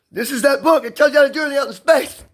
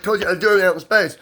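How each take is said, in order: First: High, hurried promo declaration; excited book pitch. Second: Said in the usual way. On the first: Acted. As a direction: proclaim it like a big advert, pitched way up. Acts out announcing his own book.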